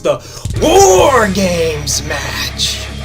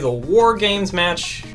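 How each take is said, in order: First: It is said loudly in a hyped, dramatic voice. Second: It is said calmly in an ordinary voice. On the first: The speaker calls it right. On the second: The speaker calls it wrong.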